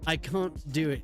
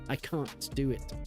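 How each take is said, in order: First: Can't is said with an American flat vowel. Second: Can't is said with a British broad vowel. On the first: It is the speaker's own normal way of saying it. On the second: It imitates a European speaker using British English.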